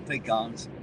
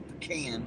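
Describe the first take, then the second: First: "pecans" said as PEE-kahns, a long EE in the first syllable and a nasal AH; pecan his own way. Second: "pecan" said as puh-KAN, a short first syllable and a flat open A. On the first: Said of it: "I've always called 'em pecans". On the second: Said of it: "I've heard people call 'em a pecan". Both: Shown as a demonstration.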